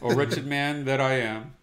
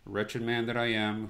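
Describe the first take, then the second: First: It is read with strong passion. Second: It is read in a plain, flat way.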